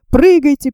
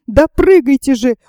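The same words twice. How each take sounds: First: Firm, narrated order to jump; a contained but urgent command. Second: Insistent narrated cry to jump; restrained storyteller's shout; exasperated shout. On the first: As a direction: give a brisk order, short of shouting. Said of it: "приказал Доуэль". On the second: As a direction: press the order home with raised urgency. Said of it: "уже закричал он". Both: A narrator's reading.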